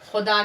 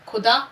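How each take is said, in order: First: The first consonant is a fricative kh sound. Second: The first consonant is an aspirated k sound. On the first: The speaker calls it right. "ये सही है" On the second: The speaker calls it wrong. "अगर हम कहें खुदा तो कितनी गलत बात हो जाएगी"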